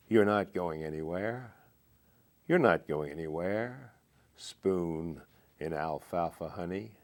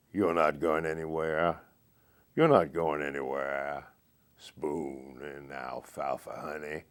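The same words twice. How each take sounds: First: Said in the usual way. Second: Morgan Freeman voice. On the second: Shown as a demonstration. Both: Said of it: "I'll just repeat the last stanza in his voice".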